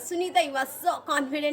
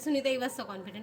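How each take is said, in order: First: It is said lively with high energy. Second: It is said loosely with low energy.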